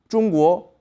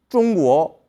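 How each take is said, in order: Both takes have the same delivery.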